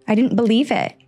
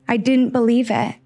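Both takes have the same delivery.

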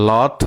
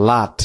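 First: "লট" with a rounded o vowel; British pronunciation. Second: "লাট" with an open ah vowel; American pronunciation. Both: Shown as a demonstration. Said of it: "American আর British".

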